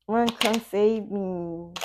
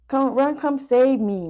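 First: Slow, stretched-out mock begging; slow drawn plea. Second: Higher, pushed plea for rescue; mock pleading ex. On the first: Reader voicing the ex, slowly drawn-out plea. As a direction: drag each word out like a sigh. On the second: Reader voicing the ex begging to be saved, mock pleading. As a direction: beg like the stuck ex, half joking.

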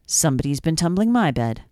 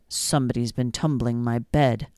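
First: Said in the usual way. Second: Low, gruff papa bear voice; big bear finding his bed mussed, low growl. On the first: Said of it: "the middle-sized bear said". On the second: A narrator's reading. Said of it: "the big bear growled".

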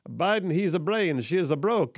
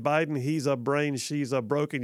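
First: Mock Italian accent read. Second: Said in the usual way. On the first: Shown as a demonstration. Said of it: "supposed to be said with an Italian accent". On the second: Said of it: "you don't say, "Read it like an Italian accent".

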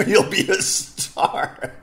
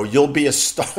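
First: Laughing mock. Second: Said in the usual way. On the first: Mocking the job offer. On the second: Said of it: "come do radio in Mexico".

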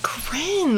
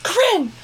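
First: Higher, softer, ladylike name call; imitating proper mom. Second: High, sudden call of a name; mom calling out. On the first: Daughter mimics how her ladylike mom addresses her, proper. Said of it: "she's so proper". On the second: Retold or imitated. Daughter imitates mom calling as she falls asleep, sudden call. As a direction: mimic a mother calling you awake.

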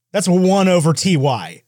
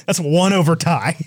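First: "T Y" said as two separate letters; slowly name the letters in "T Y", tee, why; letters spelled out. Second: "tie" said as one syllable; letters as one word. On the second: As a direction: run T and Y together into "tie". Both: Retold or imitated.

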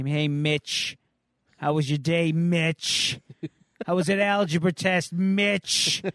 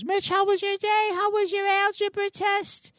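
First: Mom's questions in a lightly voiced sing-song mock; a bored kid sneering at how his mother sounds; teen mocking his mom. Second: Much higher, sweet motherly falsetto; mom voice. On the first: Kid imitating his nagging mom with mild mockery. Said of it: "I can just hear my mom now asking me". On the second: Retold or imitated. Mother greets her teen son, high sweet mom voice. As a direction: chirp it like a cheery, fussing mom. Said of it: "She goes".

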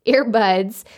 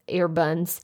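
First: Earbuds said properly with a clear d; corrected pronunciation. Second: Earbuds slipped into "earbuns"; slip of the tongue. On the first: Podcaster laughing off a slip, earbuds corrected with a d. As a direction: fix earbuds, "buds" with a d. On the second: Podcaster hearing own slip, mispronounced earbuds as "earbuns". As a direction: say earbuds with an n for the second d, softly. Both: Real, not acted.

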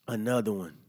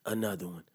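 First: Said in the usual way. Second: A hint of a low, quiet [name] catchphrase. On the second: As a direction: lightly mimic the [name] hype line. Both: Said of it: "In my D J Khaled voice".

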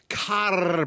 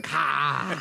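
First: "car" drawn out with a full R; "car", R clearly pronounced. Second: "car" said as "cah"; "car" ending on a long ah; car without the R. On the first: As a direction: stretch "car" and sound its final R. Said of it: "So I wanna say car". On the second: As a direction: drop the R from "car", open vowel. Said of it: "but without the R". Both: Shown as a demonstration.

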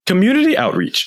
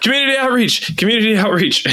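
First: Higher, firmer but calmer repeat; clear repeated request. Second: Much higher, panicked repeated shout; frantic shout. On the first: Player repeats choice to machine. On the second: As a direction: yell it before the machine picks wrong. Player frantically picks an option. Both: Acted.

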